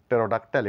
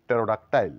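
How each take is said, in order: The two takes are said the same way.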